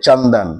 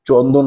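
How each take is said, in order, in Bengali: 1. প্রথম স্বরবর্ণটি 'a'-এর মতো শোনায়। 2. প্রথম স্বরবর্ণটি 'o'-এর মতো শোনায়।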